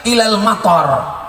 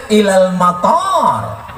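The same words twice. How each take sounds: First: "matar" said with a short a in the second syllable; short vowel, wrong. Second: "matar" said with a long a before the r; long vowel, correct. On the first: Preacher showing the short vowel that changes the meaning. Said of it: "Mata hujan". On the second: Preacher showing the correct long vowel for airport. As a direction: stretch the a in "matar", with alif. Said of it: "Mestinya pakai alif". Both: Shown as a demonstration.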